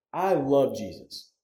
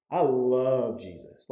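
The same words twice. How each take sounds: First: Slow, moved declaration of love; emotional. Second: Choked up. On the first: Pastor telling the congregation he loves Jesus, slow and moved. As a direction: let the feeling catch a little, slowly. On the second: Pastor repeating his love for Jesus, choked up and slow. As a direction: let it break a little as you repeat it. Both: Real, not acted. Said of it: "when y'all see me get emotional up here".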